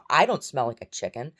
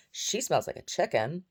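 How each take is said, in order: First: "I" punched loud; stress on I. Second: "She" pitched high and drawn out; stress on SHE. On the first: Woman denies she smells like a chicken, stressing "I". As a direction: lean hard on "I" at the start, louder. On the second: Woman blames the chicken for the smell, stressing "She". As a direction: hit "She" high, slowing the line. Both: Retold or imitated.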